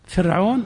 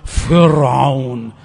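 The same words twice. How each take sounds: First: The r sound is thin and light. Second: The r sound is thick and heavy. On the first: The speaker calls it right. "رقق فرعون وصغر فرعون الخبيث" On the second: The speaker calls it wrong. "لا تقول فرعون"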